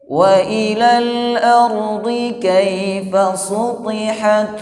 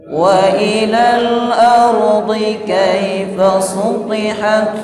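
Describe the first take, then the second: No difference in how they are said.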